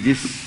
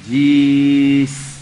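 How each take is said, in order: First: The vowel is short and the s is held. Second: The vowel is drawn out long. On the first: The speaker calls it right. "जिस सीन को खींचे" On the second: The speaker calls it wrong. "अल्फाज को ज्यादा खींचा आपने"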